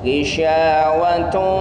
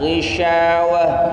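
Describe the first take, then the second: First: The word ends in a t sound. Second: The word ends in an h sound. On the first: The reciter continues into the next word. "ketika kita lanjutkan maka dia tetap menjadi tak marbutah" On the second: The reciter stops after this word. "Tak marbutah jika diwaqaf maka dia menjadi hak besar"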